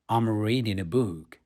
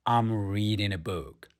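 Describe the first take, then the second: No difference in how they are said.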